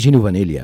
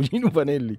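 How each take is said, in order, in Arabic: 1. ينتهي اسم العائلة بصوت 'ya'. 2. ينتهي اسم العائلة بصوت 'ee'. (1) "انا طبعا كنت مسميه جينو فانيليا, ما كنتش بعرف انطق الاسم" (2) "هو الراجل اسمه [name]"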